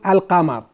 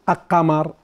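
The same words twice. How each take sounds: First: The L sound is clearly pronounced before the Q. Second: The L sound merges into the following consonant. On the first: The speaker calls it right. "ال تطلع إيش اللام بس" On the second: The speaker calls it wrong. "ولا نقول القمر نسوي إدغام"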